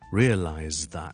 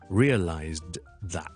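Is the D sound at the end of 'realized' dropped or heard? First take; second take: dropped; heard. First: The final D of realized is dropped. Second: The final D of realized is clearly pronounced. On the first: The speaker calls it right. "你就听到呢我会省略了那些" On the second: The speaker calls it wrong. "我就不会读成realized that 这样的，因为呢实在太巧口了"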